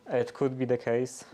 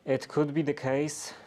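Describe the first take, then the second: No difference in how they are said.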